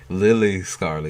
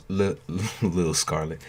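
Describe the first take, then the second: First: Lily said as two full syllables, Li-ly, stressed on Li; name said as Lily Scarlet. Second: Said in the usual way. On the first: Shown as a demonstration. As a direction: say Lily Scarlet, not Lil. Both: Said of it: "You sound like a rapper".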